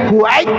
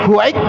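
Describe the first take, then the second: No difference in how they are said.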